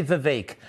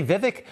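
First: Vivek with stress on the second syllable, long a; Vivek as vih-VAKE. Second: Vivek with stress on the first syllable, short i in both. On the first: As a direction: say Vivek to rhyme with cake. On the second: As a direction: say Vivek to rhyme with civic. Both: Shown as a demonstration. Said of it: "some people say Vivek".

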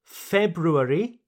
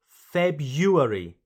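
First: February as FEB-ROO-air-ee, rising; both R's pronounced. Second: February as FEB-YOO-air-ee, falling; first R dropped. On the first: Teacher reassures learners, first option with both R's. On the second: Teacher reassures learners, second option without first R. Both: Shown as a demonstration. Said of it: "You can say".

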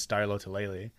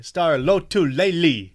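First: Said in the usual way. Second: Mock announcer punching every syllable of Lotulelei, loud and slow; hard-hit consonants. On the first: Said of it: "whenever they pronounce his name". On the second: Player imitates announcers saying the name, Lotulelei pounded out hard. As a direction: boom out Lotulelei with each consonant hammered. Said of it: "why are you hitting each consonant so hard".

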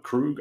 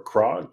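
First: "Krug" said with a short u, like "rug"; "Krug" rhyming with "bug", asking. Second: "Krog" said with an o sound, like "frog". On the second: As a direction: try "Krog" rhyming with "log". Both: Shown as a demonstration. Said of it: "I don't know".

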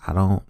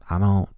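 No difference in how they are said.

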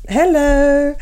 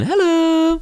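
First: Higher, louder drawn-out "Hello" answering back; mock hello. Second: Sing-song hello. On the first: Answering the cohost's sing-song with a stretched hello. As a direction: echo it back in a playful stretched tone. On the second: Acted. Teasing cohost with a high sing-song "Hello". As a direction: chirp it like a magazine jingle. Playful echo of Hello Magazine.

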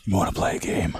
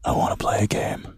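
First: Low, unvoiced horror villain; creepy horror whisper. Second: Unvoiced sinister whisper; creepy horror whisper. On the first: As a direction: whisper it like a movie killer. Horror movie quote. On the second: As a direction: hiss it like a puppet killer. Horror movie quote again.

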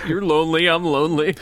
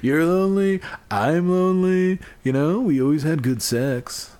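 First: Mock persuasive plea. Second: Hammed-up phone-call coaxing; mock pleading proposition. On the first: Voicing the imagined call to an ex. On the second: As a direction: coax an ex, pitched up and playful. Echoing and acting the imagined call.

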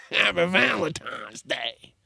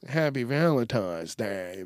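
First: Higher, slow, drawn-out holiday greeting; exaggerated greeting. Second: Said in the usual way. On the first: Host mock-celebrating Valentine's Day for listeners, exaggerated greeting. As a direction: stretch out a playful put-on greeting.

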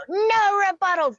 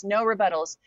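First: Screamed much higher and louder, far from her own voice; group scream. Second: Said in the usual way. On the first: Retold or imitated. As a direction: yell it like the whole group at once. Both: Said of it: "the whole group would just scream it".

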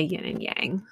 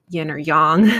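First: "yang" with a flat short "a", as in "hang"; own pronunciation. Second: "yang" with an open "ah" vowel, said louder; alternative pronunciation. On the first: Podcaster telling listeners how she says it, own pronunciation. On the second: Podcaster showing listeners how others say it, alternative pronunciation. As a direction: say "yang" the other way, rhyming with "song". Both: Shown as a demonstration. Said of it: "I say yin and yang".

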